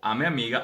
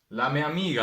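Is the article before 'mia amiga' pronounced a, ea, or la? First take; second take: a; la. First: The article is pronounced as a bare a. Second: The article is pronounced with an l: la.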